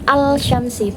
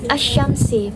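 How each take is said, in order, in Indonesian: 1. 'l' yang jelas dilafalkan sebelum 'sh'. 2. 'l' melebur menjadi bunyi 'sh' yang ganda. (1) "bukan al-syamsi" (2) "alif lam itu tidak dianggap, jadinya asyamsi"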